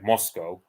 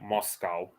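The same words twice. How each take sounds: First: Moscow is pronounced the British way. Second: Moscow is pronounced the German way. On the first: "Whereas we say it Moscow, which is generally a lot closer to the heavy Russians say it" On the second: "they pronounce Moscow the German way, like because the Germans say it Moscow"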